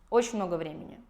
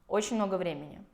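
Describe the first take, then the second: The two takes are said the same way.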